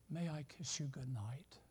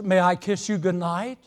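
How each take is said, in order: First: It is said very softly and quietly. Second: It is said at a raised, moderate volume. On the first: He hopes not to be overheard. "in a very soft voice" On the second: He wants to make sure she hears. "he raises his voice to speak"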